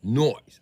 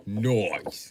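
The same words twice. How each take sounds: First: "Noise" higher and louder, rising, as a British "noice"; mock British accent. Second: "Noise" as a British "noice", falling; mock British accent. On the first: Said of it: "Bloody perfect accent". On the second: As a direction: drop it like a cheeky Brit. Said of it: "The accent is perfection".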